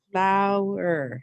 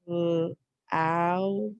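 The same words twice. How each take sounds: First: Flower with the ow stretched and stressed; overpronounced ow. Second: Said in the usual way. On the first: Shown as a demonstration. Teacher overpronounces the ow in Flower. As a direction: lean hard on the ow in Flower. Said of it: "if we overpronounce the, the ow part".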